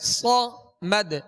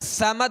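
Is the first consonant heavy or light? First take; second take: heavy; light. First: The first consonant is heavy and emphatic. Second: The first consonant is light and thin. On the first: The speaker calls it right. "सख्ती से अदा करेंगे और पुर पढ़ेंगे" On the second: The speaker calls it wrong. "समद नहीं पढ़ेंगे"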